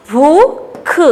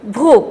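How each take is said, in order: First: "भूख" split into long rising "भू" and short "ख"; sounding out. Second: "भूख" in one piece with a long oo; blended with stress. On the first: Teacher drilling children, sounded out. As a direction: break "भूख" apart. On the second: Teacher blending the word for children, stressed. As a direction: join "भूख" up, holding the vowel. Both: Shown as a demonstration. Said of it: "जोर दे के बोलना".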